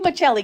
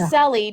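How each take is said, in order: First: The middle consonant is a ch sound. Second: The middle consonant is an s sound. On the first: This is the Italian pronunciation. The speaker calls it right. "it's Fancy Michelli" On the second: This is the American pronunciation. The speaker calls it wrong. "she's pronouncing it the way the American way is"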